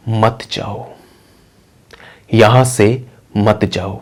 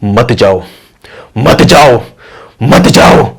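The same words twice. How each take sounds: First: Slow, soft ghostly warning; unhurried, hushed phantom telling her to stay; eerily gentle and drawn-out; calm spirit voice. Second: Demonic warning, building louder with each repeat; menacing phantom voice growing forceful; loud deep spirit. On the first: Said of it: "पहले तो वो बहुत आराम से बोलता है". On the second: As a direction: swell into a booming ghostly command. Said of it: "voice होती है वो तेज और डीप होनी शुरू हो जाती". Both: Acted.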